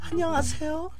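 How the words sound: The put-on voice sounds soft and gentle.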